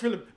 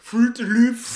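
First: It is said in a plain, ordinary accent. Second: It is said in a put-on Norwegian accent. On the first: "Not just Fruit Loops" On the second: "the way the character, the Count, says it"

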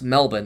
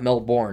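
First: The name is pronounced in the Australian way. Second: The name is pronounced in a non-Australian way. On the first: The speaker calls it right. "That's how they pronounce it over there" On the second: The speaker calls it wrong. "It's not Melbourne"

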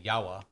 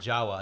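First: The word begins with a Y sound. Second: The word begins with a J sound. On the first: The speaker calls it right. "it's a Yawa" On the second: The speaker calls it wrong. "They don't call it"

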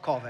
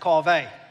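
First: It is pronounced like the English surname Carver. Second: It is pronounced like the Hebrew word qavah. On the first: The speaker calls it wrong. "My surname's Carver. It's not Carver" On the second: The speaker calls it right. "It's Carver"

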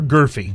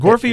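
First: The name begins with a hard G and 'ur'. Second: The name begins with a hard G and 'or'. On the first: "Is it Gorfie or Gurfy?" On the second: "Am I saying it right?"

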